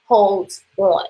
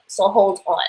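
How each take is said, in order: First: Said in the usual way. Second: Put-on playful New York accent on hold on. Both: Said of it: "That's my New York accent".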